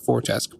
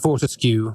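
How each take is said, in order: First: The name ends rhyming with grotesque. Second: The name ends with a cue sound. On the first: "a play on on grotesque, so I thought Fortesque" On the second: "but maybe it is gonna"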